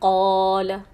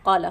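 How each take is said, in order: First: The vowel is held for two beats. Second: The vowel is cut shorter than two beats. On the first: The speaker calls it right. "इसको सिर्फ दो हरकत खींची है" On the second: The speaker calls it wrong. "अगर इसको कम कर देते हैं"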